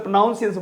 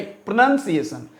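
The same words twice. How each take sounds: First: प्रोनाउंसिएशन said with "nown" in the second syllable; प्रोनाउंसिएशन with the "ow" sound of pronounce; wrong pronunciation. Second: प्रोनंसिएशन said with a short "nun" and no "ow"; प्रोनंसिएशन, the corrected form; correct pronunciation. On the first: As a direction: imitate the common mistake प्रोनाउंसिएशन. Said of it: "कुछ लोग प्रोनाउंसिएशन बोलते हैं". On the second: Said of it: "नहीं, प्रोनंसिएशन". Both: Shown as a demonstration.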